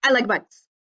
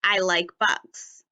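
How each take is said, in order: First: "I like bugs" rushed as one word, no pauses; too fast, no spaces between words; run together too fast. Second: "I like bugs" said slowly, each word given its room; careful slow reading; slow and spaced. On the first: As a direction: squash the words together with no breaths. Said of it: "I would have to read it like this". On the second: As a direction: read it slowly with a small gap between words. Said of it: "my sentence should say". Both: Shown as a demonstration.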